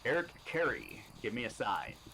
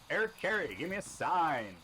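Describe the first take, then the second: First: It is said in a put-on professional voice. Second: It is said in his ordinary voice.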